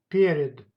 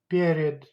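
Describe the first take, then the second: No difference in how they are said.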